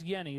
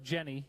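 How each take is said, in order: First: The name begins with a Y sound. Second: The name begins with a J sound. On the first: "that's how you pronounce that name" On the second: "even though it looks like Jenny"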